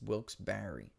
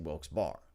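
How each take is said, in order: First: The second word is two syllables, like Barry. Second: The second word is one syllable, like bar. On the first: The speaker calls it right. "I think they said Barry" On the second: The speaker calls it wrong. "I used to say Wilkes Bar"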